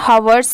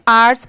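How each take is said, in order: First: The word starts with an h sound. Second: The word starts without an h sound. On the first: The speaker calls it wrong. "हवर्स नहीं" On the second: The speaker calls it right. "इसे सिर्फ आर्ट्स पढ़ रहे हैं"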